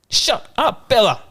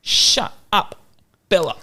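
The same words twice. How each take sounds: First: Put-on toddler yelling. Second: Put-on higher, hushed toddler shout at the dog; half-hearted imitation of a toddler; dad imitating his toddler telling the dog off; toddler yelling. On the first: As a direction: shout it bossily like a little kid. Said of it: "I'm like". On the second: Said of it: "And I was like".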